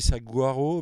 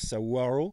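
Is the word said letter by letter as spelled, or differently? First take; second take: as spelled; differently. First: It is read out the way it is spelled. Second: It is said differently from its spelling. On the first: "ça s'écrit saguaro" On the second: "mais ça se prononce saguaro"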